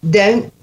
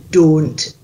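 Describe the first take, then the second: First: "Don't" with a gliding OH-oo vowel; American-style "Don't", rising at the end; usual Southern pronunciation. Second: "don't" with a pure "or"-like O; Scottish "don't", rounded and falling; Scottish O sound. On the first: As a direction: slide the O in "Don't" towards oo. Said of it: "is how you would probably say it now". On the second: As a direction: say "don't" with no glide in the vowel. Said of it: "but you wanna go". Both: Shown as a demonstration.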